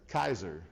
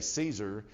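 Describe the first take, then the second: First: It begins with a hard K sound. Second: It begins with a soft S sound. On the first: "They only had the hard C sound, which was Kaiser" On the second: "the soft C sound like we say Caesar"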